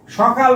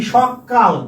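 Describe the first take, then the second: First: Said in the usual way. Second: "সকাল" with a long double ক; doubled consonant. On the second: Shown as a demonstration. Teacher answers his own question, doubled ক in "সকাল". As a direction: punch the held k in "সকাল". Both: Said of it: "সকাল মানে কি".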